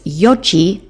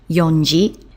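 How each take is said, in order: First: There is no n sound before ji. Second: There is an n sound before ji. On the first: The speaker calls it right. "which is yoji" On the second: The speaker calls it wrong. "not yonji"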